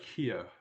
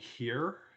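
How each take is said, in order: First: The final r sound is dropped. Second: The final r sound is clearly pronounced. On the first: "he'd like do an R drop" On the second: "instead of saying here"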